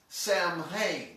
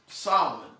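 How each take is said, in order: First: It is pronounced letter by letter, as spelled. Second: It is pronounced unlike its spelling. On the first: The speaker calls it wrong. "it would be read as Samhain. That's how I when I saw it, that's the way I pronounced it" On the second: The speaker calls it right. "It's pronounced Solomon"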